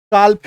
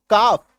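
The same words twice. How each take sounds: First: काल्फ loud, with the L pronounced; wrong L-sounded calf. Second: काफ with no L before the F; silent L. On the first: Acted. Teacher acting learners who refuse the rule, L pronounced. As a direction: say काल्फ stubbornly, L heard before F. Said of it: "गलत हो जाएगा". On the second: Shown as a demonstration. Teacher reading calf after cutting the L, silent L. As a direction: say काफ, long vowel straight into F. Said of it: "काट दो एल को".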